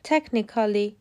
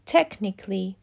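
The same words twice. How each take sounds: First: A vowel is said between the k and l. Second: No vowel is said between the k and l. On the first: The speaker calls it wrong. "احتمالاً حد زدین که این واژه ها که همگی قید هستن اشتباه تلفظ شدن" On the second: The speaker calls it right. "باید بگیم ... به همین ترتیب automatically و technically"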